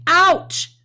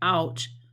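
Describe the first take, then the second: First: It is said with strong feeling. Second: It is said flatly, without feeling.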